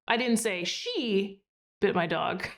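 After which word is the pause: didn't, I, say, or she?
she. There is a pause after the word she.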